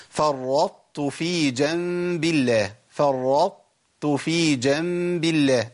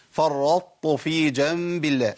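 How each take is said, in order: First: فرطت slowly, with the first tāʾ heavy; slow فرطت في جنب الله with the emphatic held; correct farraṭtu. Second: فرطت with two full ṭāʾ sounds; both tāʾ heavy in فرطت; wrong farraṭtu. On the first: Teacher demonstrating the correct reading. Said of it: "ده الصح". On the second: Teacher showing students the mistake. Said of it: "الخطأ إيه". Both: Shown as a demonstration.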